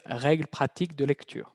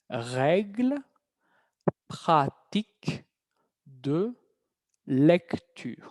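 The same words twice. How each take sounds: First: The phrase is said quickly, without pausing. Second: The phrase is said slowly, with a pause.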